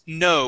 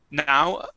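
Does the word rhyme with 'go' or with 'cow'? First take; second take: go; cow. First: The vowel rhymes with go. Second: The vowel rhymes with cow. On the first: The speaker calls it right. "it's no with an O sound" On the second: The speaker calls it wrong. "here you said now"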